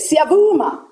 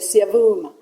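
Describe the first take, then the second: First: The word is said loudly. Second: The word is said softly. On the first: The guesser is close to the answer. "you say it louder or softer depending on how close they are" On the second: The guesser is far from the answer. "and it's not"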